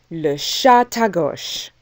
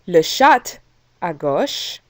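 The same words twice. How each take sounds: First: The T is linked into the next word. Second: The T is not linked to the next word. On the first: The speaker calls it right. "we say le chat à gauche ... we pronounce the T at the end of chat with the A" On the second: The speaker calls it wrong. "we don't say le chat à gauche"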